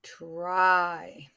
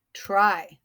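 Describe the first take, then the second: First: Drawn out. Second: Said short. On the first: Teacher repeating the word for class, TRY drawn out. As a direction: TRY stretched through the vowel. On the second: Teacher showing a short word, TRY said quickly. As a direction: TRY in one quick beat. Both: Shown as a demonstration. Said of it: "it's short".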